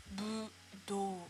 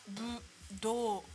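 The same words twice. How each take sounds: Both takes have the same delivery.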